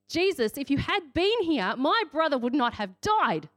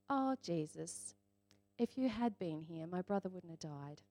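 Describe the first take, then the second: First: It is said in a furious, shouting tone. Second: It is said in a calm, reflective tone.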